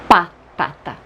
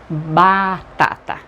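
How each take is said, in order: First: The word begins with a voiceless p sound. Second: The word begins with a voiced b sound. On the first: The speaker calls it wrong. "não é patata" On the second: The speaker calls it right. "é batata"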